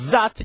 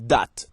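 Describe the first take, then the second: First: The word begins with a th sound. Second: The word begins with a d sound. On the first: This is the standard English way. "instead of saying that" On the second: This is the Jamaican patois way. "changing our T H's to D's or T's. ... you say that"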